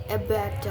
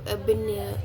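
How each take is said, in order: No difference in how they are said.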